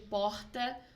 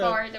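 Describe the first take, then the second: First: The R is a Rio-style throaty R sound. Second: The R is a strong interior-style R sound. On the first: This is how people from Rio say it. "é diferente do porta do, do carioca" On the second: This is the original, older pronunciation. "esse é o R original"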